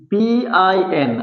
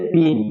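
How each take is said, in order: First: পিআইএন slowly spelt, P, I, N; letter by letter. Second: পিন as one syllable, "pin"; read as word. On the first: Teacher contrasting the wrong reading, পিআইএন letter by letter. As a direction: give every letter of পিআইএন its own beat. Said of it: "আলাদা আলাদা অক্ষর পড়ি নাই". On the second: Teacher demonstrating an acronym, পিন said as one word. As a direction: say পিন joined up as a single word. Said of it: "আমরা একসাথে পড়ছি word আকারে". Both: Shown as a demonstration.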